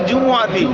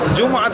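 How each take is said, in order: First: The m is followed by a short u vowel. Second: The m is said with no vowel after it. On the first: The speaker calls it right. "এটা বিজাম্মিল মিম" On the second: The speaker calls it wrong. "এটা যারা জুমআতি সাকিন পড়ে এটা লাহানে জলি"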